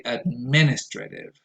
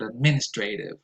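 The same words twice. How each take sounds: First: Administrative with MIN stressed and a short TRA; ad-MIN-is-truh-tive for administrative; safe pronunciation. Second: Administrative with a full TRAY vowel; ad-MIN-is-tray-tive for administrative; alternative pronunciation. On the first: Giving learners the safe option, administrative stressed on MIN. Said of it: "stress goes on the second syllable". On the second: Reporting a variant heard, administrative with a long TRAY. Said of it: "I've also heard". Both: Shown as a demonstration.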